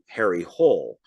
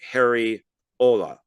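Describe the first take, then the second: First: The surname sounds like English 'hole', one syllable. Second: The surname sounds like 'Ola', two syllables. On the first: The speaker calls it wrong. "if you were to pronounce it in America" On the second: The speaker calls it right. "It it's like Ola"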